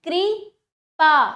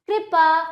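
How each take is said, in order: First: कृपा very slow, कृ... then loud पा; broken into syllables. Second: Said in the usual way. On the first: Shown as a demonstration. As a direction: split कृपा with a long pause. (कृपा को धीरे से तोड़कर: कृ... पा) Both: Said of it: "तोड़कर पहले".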